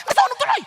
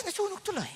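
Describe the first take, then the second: First: High, very loud mock outburst; hammed-up furious shout; shouting scold. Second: Soft, high, restrained mock reproach; hushed pretend politeness; suddenly controlled. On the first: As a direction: yell it as an angry scolding. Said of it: "ang lakas ng boses". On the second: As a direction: say it small and held back. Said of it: "bigla nakokontrol mo yung spirito".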